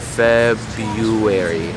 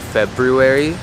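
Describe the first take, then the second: First: The first R sound is dropped entirely. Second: The first R sound is pronounced clearly. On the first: "So ignore that first R. It's a lot faster and it's just easier" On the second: "It is a mouthful trying to say February"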